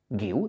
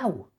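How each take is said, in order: First: The name ends in a plain 'iu' sound. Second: The name ends in an added 'iau' sound. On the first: The speaker calls it right. "Si le añades una U, guiu" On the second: The speaker calls it wrong. "¿Por qué dices Guiau?"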